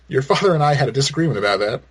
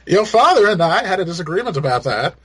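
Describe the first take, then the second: First: It is said in his own plain voice. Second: It is said in a put-on Martha voice.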